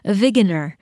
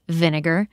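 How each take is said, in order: First: The g sound comes before the n sound. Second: The n sound comes before the g sound. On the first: "I was saying it differently" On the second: "what do you wash the floor with, Christina? Vinegar"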